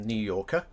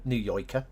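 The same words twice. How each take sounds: First: Said in the usual way. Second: New York "Yorker" said as "Yoiker"; New York accent. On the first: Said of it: "no-, New Yorker". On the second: Shown as a demonstration. Streamer demonstrating American dialects, New York accent. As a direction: turn the "or" into "oy", New York style. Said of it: "very definitively New Yorker".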